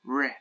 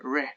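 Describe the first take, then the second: No difference in how they are said.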